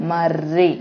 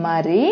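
First: మర్రి with a held rolled rr; ఒత్తు on ర, మర్రి with doubled rr. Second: Said in the usual way. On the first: Shown as a demonstration. Teacher contrasting మరి and మర్రి for class, held rr. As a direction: press the rr in మర్రి. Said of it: "రీకి రావతిస్తే రీ". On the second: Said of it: "మొదట దాంట్లో రీ".

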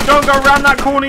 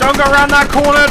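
First: Urgent repeated yell; warning shout. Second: Shouted warning, urgent. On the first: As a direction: shout it again, insistent. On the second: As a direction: yell it as a warning. Warning teammate in firefight. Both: Real, not acted.

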